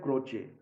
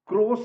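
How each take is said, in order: First: The middle consonant is a 'ch' sound. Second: The middle consonant is an 's' sound. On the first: This is the Italian pronunciation. The speaker calls it right. "Italian में इसका उच्चारण होता है क्रोचे" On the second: This is how the spelling looks. The speaker calls it wrong. "क्रोस ऐसे दिखता है"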